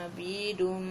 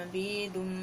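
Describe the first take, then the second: The two takes are said the same way.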